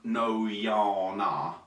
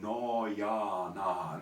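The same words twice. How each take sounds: First: The vowels slide, with a nasal buzz. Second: The vowels are pure and steady. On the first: The speaker calls it wrong. "We don't want no ya na" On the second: The speaker calls it right. "We want no ya na"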